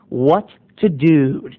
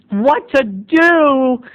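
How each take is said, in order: First: "What to do?" slow and low with a falling "to". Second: "What to do?" drawn out slowly and pitched high. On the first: Narrator answering the parents, low and slow. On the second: Mock-worried parent asking themselves, high and slow. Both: Shown as a demonstration.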